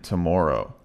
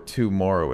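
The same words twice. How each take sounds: First: The first syllable is reduced to a quick t. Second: The first syllable has a full 'oo' vowel. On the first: The speaker calls it right. "it's today and tomorrow" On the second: The speaker calls it wrong. "you don't hear ... tomorrow"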